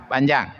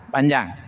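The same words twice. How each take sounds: No difference in how they are said.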